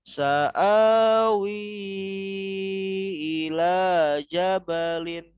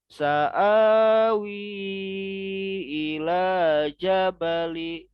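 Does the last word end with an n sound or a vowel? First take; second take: n sound; vowel. First: The last word ends with an n sound. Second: The last word ends with a vowel. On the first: The speaker calls it wrong. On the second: The speaker calls it right.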